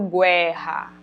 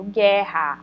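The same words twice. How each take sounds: First: A U sound is heard after the G. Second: No U sound is heard after the G. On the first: The speaker calls it wrong. "aqui eu não falo guerra" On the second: The speaker calls it right. "eu falo guerra. Olha que o U não está aparecendo o som"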